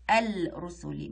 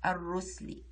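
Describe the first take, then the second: First: الرسلي as al-rusuli, the l sounded and held; wrong pronunciation demo. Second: الرسلي as ar-rusli, the lam silent; correct pronunciation demo. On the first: Showing what we don't say, lam pronounced in الرسلي. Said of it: "ما نقولش الرسلي". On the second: Showing what we say, silent lam in الرسلي. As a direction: double the r in الرسلي and drop the l. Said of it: "نقول الرسلي". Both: Shown as a demonstration.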